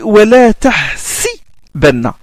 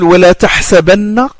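First: The vowel after the h is i. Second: The vowel after the h is a. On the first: "Warsh il lit wala tahsibanna" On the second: "avec la fatha sur le sin"

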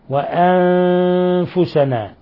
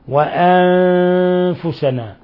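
Both takes have the same delivery.

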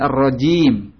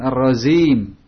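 First: The consonant is a clear 'j' sound. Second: The consonant is a 'z' sound. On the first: The speaker calls it right. "bukan za, ji, bersih" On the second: The speaker calls it wrong. "bukan ar-razim"

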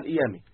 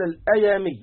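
First: The first vowel is pronounced 'i'. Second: The first vowel is pronounced 'a'. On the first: The speaker calls it right. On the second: The speaker calls it wrong.

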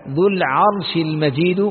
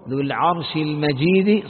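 First: The last word ends with a 'u' vowel. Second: The last word ends with an 'i' vowel. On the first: The glory describes God himself. "فإذا قرأت الرفع" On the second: The glory describes the Throne. "بقراءة أخرى بالخفض"

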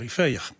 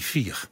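First: The vowel is a short ei-like sound. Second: The vowel is a long ie sound. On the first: This is the Sittard dialect form. "Alleen in het Zitters wordt dat een korte ei" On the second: This is the standard Dutch form. "In het Nederlands wordt die E een I"

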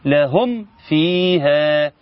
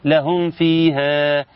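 First: The m sound before the f is strong. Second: The m sound before the f is weak. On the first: The speaker calls it right. "اما يسلمني ميم قوية من مخرجها كاملة في المخرج والصفات" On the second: The speaker calls it wrong. "كل ده هو ما اظهرش"

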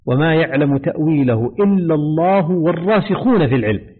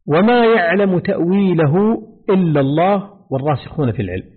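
First: It runs on without a pause after Allah. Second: There is a pause after the word Allah. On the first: The firmly grounded scholars also know its interpretation. "قراءة الوصل" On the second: Only God knows its true reality. "هنا الوقف على قوله تأويله"

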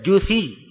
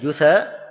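First: The word ends with an 'ee' vowel. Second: The word ends with an 'a' vowel. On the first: They fall into hell on their knees. "bisa dibaca juthi" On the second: They become fuel for the fire of hell. "bisa dibaca jusa"

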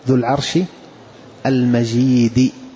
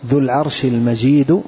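First: The d of the last word has an i vowel. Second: The d of the last word has no i vowel. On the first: Glorious describes the throne. "بكسر الدال" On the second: Glorious describes God. "وهذه قراءة الجمهور"

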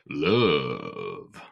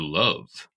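First: The vowel is stretched out long. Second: The word is said at normal length.

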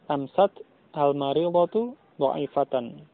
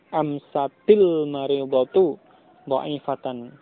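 First: The first two words are said separately. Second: The first two words are joined by an "i".

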